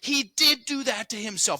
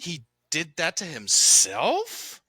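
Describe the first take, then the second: First: It sounds certain, falling at the end. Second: It sounds questioning, rising at the end.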